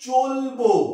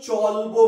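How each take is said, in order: First: The first vowel sounds like a closed 'o'. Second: The first vowel sounds like an open 'aw'. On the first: The speaker calls it right. "আমরা চলব উচ্চারণ করি কেমন?" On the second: The speaker calls it wrong. "কখনোই চলবো বলি না"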